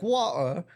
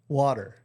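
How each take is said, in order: First: The final R sound is dropped entirely. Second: The final R sound is clearly pronounced.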